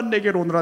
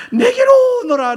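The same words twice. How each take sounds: First: Said in the usual way. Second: Much higher, loud crying call; fervent call. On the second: Pretend. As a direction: plead with full voice. God's call cried out. (간절히 부르짖으며)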